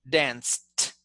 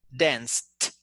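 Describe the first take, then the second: No difference in how they are said.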